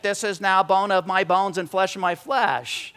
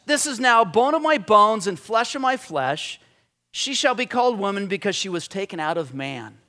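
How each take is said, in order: First: Slow, measured reading of verse; slow poetic recital; reverent recitation. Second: Recited as poetry. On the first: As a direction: recite it slowly like poetry. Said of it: "deeper than just reading and reciting". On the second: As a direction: read it like a poem. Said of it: "the very first thing out of his mouth is poetry". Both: Shown as a demonstration.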